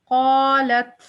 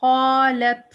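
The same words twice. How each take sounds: First: क़ालत with a breathy puff of air after त; क़ालत ending in audible air; whispered ending. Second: क़ालत said loud with the त cut dead; क़ालत without breath release; clipped stop, no whisper. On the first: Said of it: "लेकिन जब हम पढ़ेंगे क़ालत". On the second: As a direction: stop क़ालत hard on त, no air. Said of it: "क़ालत अगर कह के ... हम्स नहीं किया". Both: Shown as a demonstration.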